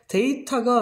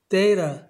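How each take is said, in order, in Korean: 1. 중간 t는 분명한 t 소리입니다. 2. 중간 t는 r처럼 플랩으로 발음됩니다. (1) "데이터가 아니라" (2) "이 정도로 발음을 해주시면 되겠습니다"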